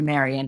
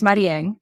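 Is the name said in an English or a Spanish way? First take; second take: English; Spanish. First: The name is said with English pronunciation. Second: The name is said with Spanish pronunciation. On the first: This is the form most people in the US use. "got anglicized into Marion" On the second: This is the name's original form. "I'm from Puerto Rico, and yeah, my name is Marieng"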